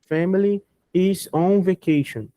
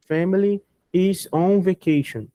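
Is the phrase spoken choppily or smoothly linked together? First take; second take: choppy; choppy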